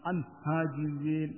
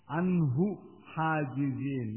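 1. Suku kata hu dihilangkan setelah an. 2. Suku kata hu diucapkan setelah an. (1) "Jangan an hajizin" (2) "Jangan dihilangkan"

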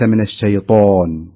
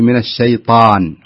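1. الـṭā' تُنطق بشفتين مستديرتين. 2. الـṭā' تُنطق بشفتين مفتوحتين غير مستديرتين. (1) "وليس من الشيطان" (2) "فنقول من الشيطان"

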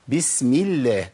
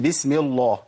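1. اللام في الله مرققة ونحيفة. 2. اللام في الله مفخمة وممتلئة. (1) "ترقق لام لفظ الجلاله ... اذا كسر ما قبلها" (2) "ما اقولش بسم الله، ما ينفعش"

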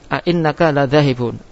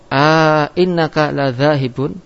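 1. Dua hentian glotis memisahkan vokal pembuka. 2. Vokal panjang berada di antara dua hentian glotis. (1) "yaitu tetap a'innaka ladhahibun" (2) "tetap dan datang alif di antara dua hamzah"

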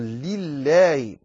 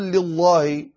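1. اللام خفيفة ورقيقة. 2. اللام ثقيلة وغليظة. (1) "عليك أن تنتبه لترقيق لام لله" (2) "لا تقول لله، هذا خطأ"

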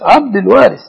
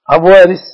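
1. يُنطق الاسم مع أداة التعريف قبل Warith. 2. يُنطق الاسم بدون أداة التعريف قبل Warith. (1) "أدخل الدال" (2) "ما في حاجة اسمها عبد وارث"

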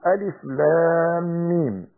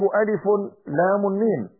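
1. تنتهي أسماء الحروف بدون صوت نون زائد. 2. تنتهي أسماء الحروف بصوت نون زائد. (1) "لا بد أن أنطق بهذه الحروف كنطقي بها حالة التلاوة" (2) "ولا أقول ... لا يجوز لي أن أنون هذه الحروف"

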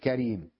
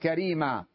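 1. تنتهي الكلمة بالحرف الساكن 'm'. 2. تنتهي الكلمة بالمد الطويل 'a'. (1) "أما ربيعة تقول كريم" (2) "الجمهور العرب تقول كريما"

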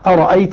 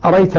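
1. تُنطق الهمزتان كاملتين وواضحتين. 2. تُحذف الهمزة الثانية تماماً. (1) "بهمزتين مقطعتين" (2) "يحذف الهمزة الثانية منها الكسائي"

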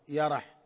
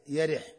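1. تُنطق الكلمة بفتحة بعد الياء والراء. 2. تُنطق الكلمة بفتحة بعد الياء، وكسرة بعد الراء. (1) "بفتح الياء مع فتح الراء" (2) "وكسرها"

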